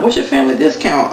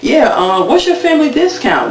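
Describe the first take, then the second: First: Said in the usual way. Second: Much higher, teasing question; imitating a sly bargain-hunter, voice up high; cheeky ask. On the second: Cast member asking cheekily.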